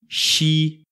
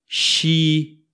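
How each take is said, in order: No difference in how they are said.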